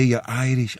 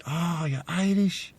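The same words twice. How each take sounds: First: Said in the usual way. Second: Imitated soft, high, drawn-out amazement; delighted surprise. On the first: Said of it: "And you say". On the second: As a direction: react in wonder, high and hushed. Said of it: "their eyes lights up".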